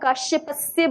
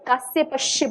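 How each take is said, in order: First: The first hissing sound is 'sh', the second 's'. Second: The first hissing sound is 's', the second 'sh'. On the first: The speaker calls it right. "आपको काश्यपस्य बोलना चाहिए था" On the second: The speaker calls it wrong. "उसकी जगह आपने कास्यपश्य बोल दिया"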